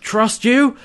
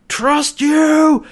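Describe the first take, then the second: First: High incredulous mock shout, rising at the end; imitated outraged query, voice lifting; shouted question. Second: High, loud mock yell, falling at the end; full-on acted shout, higher and louder; shouted exclamation. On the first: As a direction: act out a disbelieving, raised question. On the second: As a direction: bellow it in imitated outrage. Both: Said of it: "he's just shouting".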